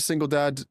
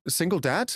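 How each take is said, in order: First: Said in the usual way. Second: DAD lifted into a question; questioning repeat. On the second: Real, not acted. Querying a friend calling himself single dad, questioning.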